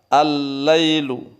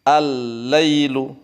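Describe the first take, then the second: No difference in how they are said.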